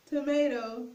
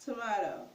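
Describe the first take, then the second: First: Said in the usual way. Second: "Tomato" with a middle "ah"; tomahto pronunciation. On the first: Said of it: "So tomato or tomato". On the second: Shown as a demonstration. Teacher repeats the second version for viewers, "Tomato" as to-MAH-to. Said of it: "pronounce it tomato".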